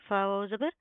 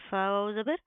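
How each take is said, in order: The two takes are said the same way.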